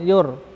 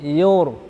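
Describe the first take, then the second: First: The r is thin and light. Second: The r is thick and heavy. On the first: The speaker calls it wrong. "jangan yur" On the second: The speaker calls it right. "tapi yur, yur, tebal"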